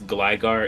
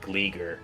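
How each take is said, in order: First: The first vowel sounds like 'eye'. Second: The first vowel sounds like 'ee'. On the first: The speaker calls it right. "I do know that it's Gligar" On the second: The speaker calls it wrong. "it's not Gleeger"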